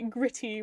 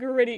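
First: The middle consonant is a clear T sound. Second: The middle consonant sounds like a soft D. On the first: The speaker calls it right. "gritty with the T's" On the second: The speaker calls it wrong. "Not gritty"

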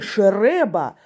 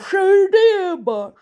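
First: The word is pronounced with clear, normal sounds. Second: The word is pronounced with a distorted consonant. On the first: This is how the word should sound. "не шереба" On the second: This is how someone else actually says it. "а шереба"

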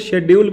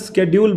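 First: The word begins with a sh sound. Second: The word begins with an sk sound. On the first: It sounds old-fashioned. "शेड्यूल पुरानी कोई चीज़ है" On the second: It sounds like fancy English. "हाई fi अंग्रेजी जानता है लड़का"

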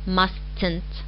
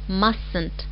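First: The T after the S is clearly pronounced. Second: The T after the S is silent. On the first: The speaker calls it wrong. "not mustn't" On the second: The speaker calls it right. "we don't utter T. We pronounce it as mustn't"

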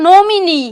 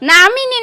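First: The first vowel sounds like 'o'. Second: The first vowel sounds like 'a'. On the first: The speaker calls it right. "ওটা নমিনি" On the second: The speaker calls it wrong. "নামিনি না"

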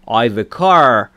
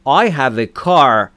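First: 'I have' is shortened to one syllable. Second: 'I have' is said as two full words.

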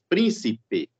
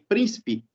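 First: All three syllables are pronounced in full. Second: The middle syllable is dropped, giving two syllables. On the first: The word is counted as three syllables in the verse. "se ele começar a contar as proparoxítonas como três" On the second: This is how the word comes out in everyday speech. "Oralmente, sai príncipe. Então, corta-se a sílaba do meio"

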